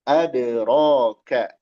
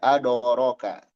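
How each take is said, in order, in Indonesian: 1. Kata pertama berakhir dengan vokal a. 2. Kata pertama berakhir dengan vokal o. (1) "Harusnya ada" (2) "hati-hati jadi ado"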